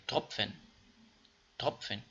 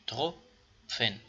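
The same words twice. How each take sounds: First: تروپفن with pf blend; right way. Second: تروپفن read with plain p and f apart; wrong way. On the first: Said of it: "نمیتونیم بخونیم تروپفن". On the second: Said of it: "نمیتونیم بخونیم". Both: Shown as a demonstration.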